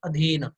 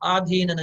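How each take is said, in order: First: The first vowel is short. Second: The first vowel is long. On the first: The speaker calls it right. "अधीन सही शब्द है" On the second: The speaker calls it wrong. "आधीन गलत है"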